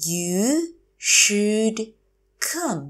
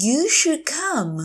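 First: You, should, come, each separate; slow teacher model of "You should come"; word by word. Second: Said in the usual way. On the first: Shown as a demonstration. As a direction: pause between the words of "You should come". Teacher repeats phrase word by word.

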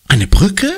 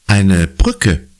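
First: High, loud, rising shocked question; shocked echo. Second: Said in the usual way. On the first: Acted. Conny echoes Papa at dinner, shocked. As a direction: blurt it out in alarm.

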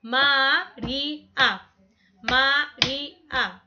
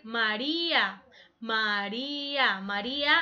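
First: María said slowly, A separated; syllables split apart. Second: Slow syllables. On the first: Teacher showing María has three syllables, slowly. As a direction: draw out Ma-rí-a slowly. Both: Shown as a demonstration. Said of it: "A va separado".

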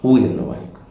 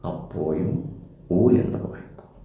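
First: Said in the usual way. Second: ഉ എന്ന് വായിക്കും whispered, no voice; whispered hint of the answer. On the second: Shown as a demonstration. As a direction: breathe the answer like a prompt to the pupil.

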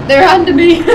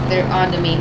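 First: Playful alarm. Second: Said in the usual way. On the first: Real, not acted. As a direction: raise the alarm in mock panic. Repeated as mock panic, then laughter.

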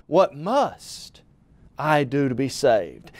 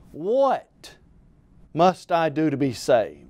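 First: "must" punched and held, then a pause; stress on MUST. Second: "What" set apart alone, then a pause; stress on WHAT. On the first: Preacher showing salvation is imperative, stress on "must". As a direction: lean hard on "must", pause, finish lower. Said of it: "we might ask the question this way". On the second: Preacher illustrating the question for listeners, stress on "What". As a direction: hit "What", pause, then drop lower for the rest. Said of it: "placing emphasis on the different words". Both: Shown as a demonstration.

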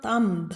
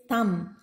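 First: "thumb" with the B sounded; wrong pronunciation. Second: "thumb" with the B silent; correct pronunciation. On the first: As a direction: voice the silent B closing "thumb", thum-b. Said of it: "It is not thumb". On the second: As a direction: close "thumb" on the m. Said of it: "it is thumb". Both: Shown as a demonstration.

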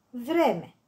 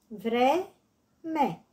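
First: Said in the usual way. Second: "Vreme" in two separated beats, vre-me; syllable by syllable. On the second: Shown as a demonstration. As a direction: leave a gap inside "Vreme": vre, me. („Vreme” rostit pe silabe: vre-me) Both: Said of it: "Desparte în silabe cuvintele date".

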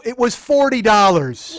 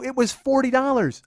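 First: Loud, drawn-out, raised pitch; exasperated yell. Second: Higher pitch, less forceful than a yell; insistent repeat. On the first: Boyfriend defending the upgrade price to his girlfriend, slow exasperated yell. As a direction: belt it out slowly in exasperation. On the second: Boyfriend repeating the price to his doubting girlfriend, insistent. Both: Retold or imitated.

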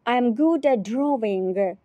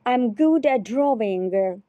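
Both takes have the same delivery.

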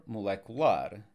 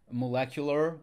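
First: Molecular in Portuguese, stressed on final LAR; stress on last syllable. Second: Said in the usual way. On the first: Shown as a demonstration. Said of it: "We stress the last syllable". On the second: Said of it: "here we have the A R on both sides".

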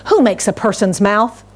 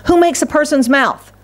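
First: Said in the usual way. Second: God's voice, pitched high and emphatic; booming voice of God. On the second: Shown as a demonstration. Preacher voicing God's challenge to Moses, emphatic and high. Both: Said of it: "I think God said it like this".

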